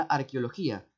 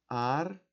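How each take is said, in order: First: Said in the usual way. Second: "Arqueología" as ar, que, o, lo, gí, a, long pauses between; syllable by syllable. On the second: Shown as a demonstration. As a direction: break "Arqueología" into six detached syllables. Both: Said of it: "Cómo lo voy a segmentar".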